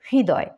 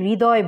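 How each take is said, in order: First: A slight h sound is heard at the start. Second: It starts directly with no h sound. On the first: The speaker calls it right. "হৃদয় একটু হয়ের উচ্চারণ আছে এর মধ্যে" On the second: The speaker calls it wrong. "সরাসরি আমরা এটাকে হৃদয় বলবো না"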